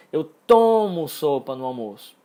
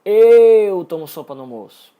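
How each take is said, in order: First: "tomo" loud and long, contrasting it with other verbs; stress on TOMO. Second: "eu" very loud and long drawn out; stress on EU. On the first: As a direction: hit and hold "tomo". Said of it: "Eu não jogo a sopa fora". ("tomo" forte, esticado e enfatizado) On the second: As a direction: blast and stretch "eu", then tail off. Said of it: "É como se fosse". ("eu" bem alto, esticado e enfatizado) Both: Shown as a demonstration.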